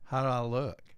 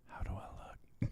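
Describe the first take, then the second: First: It is said in a plain normal voice. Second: It is said in a put-on sexy voice.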